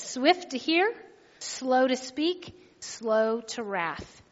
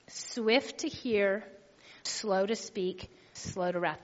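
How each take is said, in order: First: Scripture reading. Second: Each phrase slow and softer, dropping lower; slow, broken down. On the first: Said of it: "It says". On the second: Pastor breaking down James one nine for the church, slow and soft. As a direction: spell it out slowly, phrase by phrase. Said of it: "I'll break it down like this". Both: Shown as a demonstration.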